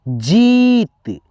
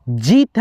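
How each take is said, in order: First: जीत with the ee held very long; जीत said slowly as jeeeet; stretched long ee. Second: Said in the usual way. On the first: Shown as a demonstration. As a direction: drag out the vowel in जीत slowly. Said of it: "खींच करके उच्चारण".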